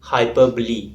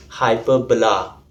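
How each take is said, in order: First: Hyperbole said hy-PER-buh-lee; literary term. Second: Hyperbola said hy-PER-buh-luh; mathematical term. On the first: Teacher showing the literature term hyperbole, ending lee. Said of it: "It ends with the letter E". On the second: Teacher showing the maths term hyperbola, ending la. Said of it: "It's pronounced as". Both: Shown as a demonstration.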